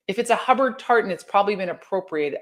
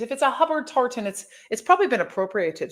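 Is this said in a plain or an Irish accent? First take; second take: plain; Irish. First: It is said in the speaker's plain accent. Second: It is said in a put-on Irish accent.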